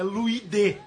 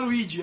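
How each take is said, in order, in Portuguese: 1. O nome termina com um 'de' simples. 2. O nome termina com um 'ji' suave. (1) "é Luide" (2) "o meu nome não é Luigi"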